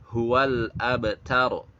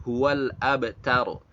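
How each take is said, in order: The two takes are said the same way.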